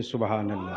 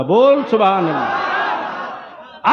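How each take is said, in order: First: Low soft सुभान अल्लाह, barely voiced; quiet. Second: Slow, laughing shout of सुभान अल्लाह; loud call. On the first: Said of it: "यहां तो जोर से बोलना चाहिए". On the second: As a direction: call out boldly, no fear. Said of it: "अरे बोल, ललकार के". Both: Shown as a demonstration.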